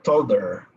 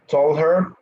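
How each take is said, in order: First: The h drops and the words link together. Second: The h in 'her' is clearly pronounced.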